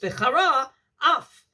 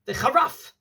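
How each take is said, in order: First: The words are said carefully and kept separate. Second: The words are said quickly and run together. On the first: The speaker calls it right. "It's V'chara Af" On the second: The speaker calls it wrong. "if you say it quickly, it will sound like V'charaf, which is not the correct word"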